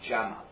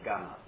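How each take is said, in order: First: The word begins with a soft J sound. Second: The word begins with a hard G sound. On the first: This is the standard Arabic form. "the proper way to say camel in Arabic is Jama" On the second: This is the Egyptian Arabic form. "But in Egypt they say Gama"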